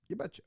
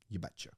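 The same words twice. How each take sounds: First: Very high, squeaky mock catchphrase; cartoonish high-pitched you betcha; silly squeak. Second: Said in the usual way. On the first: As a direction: pitch it way up for a joke.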